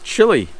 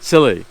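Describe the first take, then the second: First: The word begins with a 'ch' sound. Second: The word begins with an 's' sound, like 'silly'.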